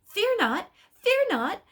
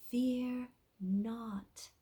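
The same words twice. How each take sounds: First: High, loud, frantic cry of fear not; excited shout. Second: Soft, whispered fear not; gentle heavenly whisper. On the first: Acted. Angel Imperial frightening the rider, high excited shout. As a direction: buzz like an over-excited bumblebee. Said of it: "buzzed around him like an excited bumblebee". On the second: Shown as a demonstration. Angel Ephrael showing Imperial how, soft heavenly whisper. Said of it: "in a gentle, soft, heavenly voice".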